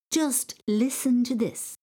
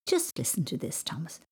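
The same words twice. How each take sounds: First: "Just listen to this" slow, high and insistent; emphatic exasperation. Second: Restrained exasperation. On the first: Mam repeats herself before reading complaints, "Just listen to this" slow and emphatic. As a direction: weigh each word of "Just listen to this", pitched up. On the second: Mam about to read out teacher's complaints, restrained exasperation. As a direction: ask for attention with contained annoyance. Mam scolds, first take. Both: A narrator's reading.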